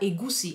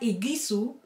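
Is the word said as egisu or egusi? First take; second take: egusi; egisu. First: The vowels are in the order e-gu-si. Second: The middle and last vowels are swapped: egisu. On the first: The speaker calls it right. "Das heißt aber egusi" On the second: The speaker calls it wrong. "Sie sagt egisu"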